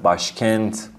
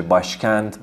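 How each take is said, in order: First: باشکنت ending on a crisp t; final t. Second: باشکند ending on a clear voiced d; final d. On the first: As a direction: say باشکنت with a t at the end. (باشکنت با ت در آخر) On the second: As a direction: say باشکند with a d at the end. (باشکند با د در آخر) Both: Shown as a demonstration.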